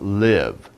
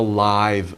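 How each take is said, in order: First: The word has its verb pronunciation. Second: The word has its adjective pronunciation. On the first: Someone continues to be alive. "if you say it as a verb, it's live" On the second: Something is happening in person, not recorded. "It's a live band. That means the band is there in person"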